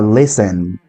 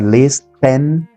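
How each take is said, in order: First: The t sound is silent. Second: The t sound is clearly pronounced. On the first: The speaker calls it right. "La T en esta palabra es muda" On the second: The speaker calls it wrong. "no tienen que pronunciar listen"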